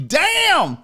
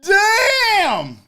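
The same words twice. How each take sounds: First: High, loud drawn-out damn; Damn shouted in amused disbelief; loud exclamation. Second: High, loud, long crying-out Damn; Damn stretched into an anguished shout; even louder damn. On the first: Reacting to a viewer's joke. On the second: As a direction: wail Damn like it hurt. Repeats reaction, longer. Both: Real, not acted.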